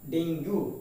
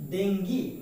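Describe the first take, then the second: First: Dengue as "DENG-goo"; common mispronunciation. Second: Dengue as "DENG-gee"; correct pronunciation. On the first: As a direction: end dengue on a rounded OO. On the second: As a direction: end dengue on an EE sound. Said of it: "exact pronunciation is". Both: Shown as a demonstration.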